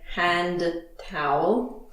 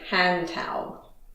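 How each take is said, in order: First: The two words are said separately. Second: The two words are linked together smoothly. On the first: The speaker calls it wrong. "We don't usually say hand towel" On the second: The speaker calls it right. "We link it and we say hand towel"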